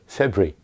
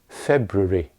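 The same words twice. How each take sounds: First: Syllables are dropped, making it even shorter. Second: An unstressed syllable is reduced, British style. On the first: "And sometimes it's even shorter" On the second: "In British English, at most it's February"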